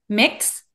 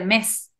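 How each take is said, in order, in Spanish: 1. El nombre de la ciudad se dice a la manera de Marsella. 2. El nombre de la ciudad se dice a la manera de París. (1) "pronunciamos en Marsella la ciudad de" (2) "en París la ciudad de"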